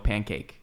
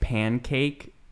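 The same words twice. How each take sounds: First: The N is made with the tongue back. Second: The N is made with the tongue front. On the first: "when you say it in a sentence, you go" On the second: "when you're saying it"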